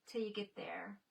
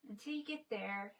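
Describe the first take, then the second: First: Whisper. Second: Said in the usual way. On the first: Real, not acted. Musing softly to herself.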